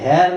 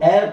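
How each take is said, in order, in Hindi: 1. इस शब्द की शुरुआत में साफ़ h ध्वनि है। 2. इस शब्द की शुरुआत स्वर से होती है, h की ध्वनि नहीं है। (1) "हेयर नहीं पढ़ते हैं" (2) "तो इसको एर पढ़ते हैं"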